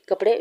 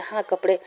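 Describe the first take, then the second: First: कपड़े asked with a rising question tune; lightly voiced confused ghost asking कपड़े; puzzled question. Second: कपड़े said with a falling, settled tune; lightly voiced friend insisting हाँ कपड़े; firm answer. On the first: Ghost puzzled by clothes order. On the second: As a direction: confirm कपड़े flatly, case closed. Wing confirms clothes order.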